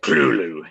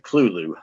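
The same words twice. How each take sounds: First: The first syllable is said guttural and thick. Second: The first syllable is said smoothly and plainly. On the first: The speaker calls it right. "the first syllable be pronounced very guttural and very thick" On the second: The speaker calls it wrong. "he said it just as civilized like that"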